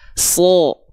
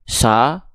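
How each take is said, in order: First: The vowel sounds darker, leaning toward O. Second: The vowel sounds like a plain open A. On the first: The speaker calls it right. "tapi dia akan terdengar seperti vokal O" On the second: The speaker calls it wrong. "apakah kita dengar dia dibaca sa, sa? Tidak"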